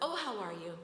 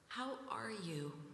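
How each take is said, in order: First: It sounds like a quick, casual greeting. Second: It sounds warm and genuinely interested.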